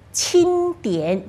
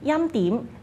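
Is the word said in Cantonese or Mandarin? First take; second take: Mandarin; Cantonese. First: The word is pronounced in Mandarin. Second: The word is pronounced in Cantonese.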